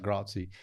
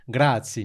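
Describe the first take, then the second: First: Softer, lower "grazie" with an English-sounding first vowel; mispronounced "grazie". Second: "grazie" with a crisp Italian ts and full first vowel; correct Italian "grazie". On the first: Retold or imitated. Imitating Shindy's failed attempt, anglicised "grazie". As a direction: say "grazie" limply, like an English learner. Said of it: "And she'll be like". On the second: Shown as a demonstration. Coaching Shindy in Italian, properly pronounced "grazie". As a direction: say "grazie" carefully as an Italian would. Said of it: "You need to say, like, grazie".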